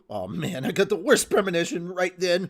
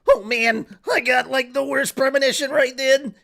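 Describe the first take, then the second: First: It is read in his normal voice. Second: It is said in a put-on character voice.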